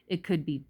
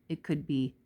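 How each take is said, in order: No difference in how they are said.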